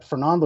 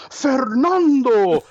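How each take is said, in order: First: Said in the usual way. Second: High, slow, savoring the name; host relishing the name, stretched long; drawn-out emcee. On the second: Retold or imitated. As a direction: roll the name out like a showman. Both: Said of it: "the way he said it".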